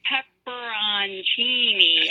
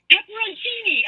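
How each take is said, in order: First: PEPPERONCINI stretched out syllable by syllable; very slow. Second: PEPPERONCINI said high, quicker than the stretched-out take; emphatic repeat. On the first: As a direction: imitate someone saying "Pepperoncini" very slowly for a confused listener. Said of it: "say it again, slower". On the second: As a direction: imitate an insistent repeat of "Pepperoncini", pitched way up. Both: Retold or imitated.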